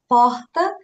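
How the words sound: It is said with a northern Brazilian accent. "Lá para o norte eles falam porta"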